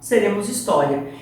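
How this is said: It is said as a statement, falling.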